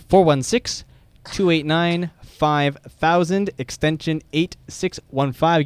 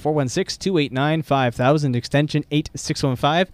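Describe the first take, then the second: First: The number is said at a slower pace. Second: The number is said at a quicker pace.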